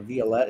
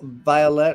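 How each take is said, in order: First: The name is said the French way. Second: The name is said the English way.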